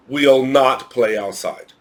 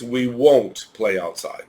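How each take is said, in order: First: "we'll not play outside" said slowly and carefully as the wrong form; slow wrong example. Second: Said in the usual way. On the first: Shown as a demonstration. Teacher warns students off the wrong form, slow and careful. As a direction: read the bad sentence slowly. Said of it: "You should never write".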